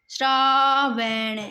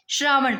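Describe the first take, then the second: First: "श्रावण" very slow, shraa-van; sounded out. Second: Said in the usual way. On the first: Shown as a demonstration. Teacher breaking a word down for students, "श्रावण" drawn out. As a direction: stretch both syllables of "श्रावण". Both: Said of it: "बस इसको बोल के देखना".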